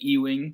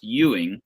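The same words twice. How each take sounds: First: The name begins with an 'ee' sound. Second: The name begins with a 'you' sound. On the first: The speaker calls it wrong. "you and every other telemarketer on the planet um, have called me E-wing" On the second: The speaker calls it right. "it is pronounced Ewing, like the letter U"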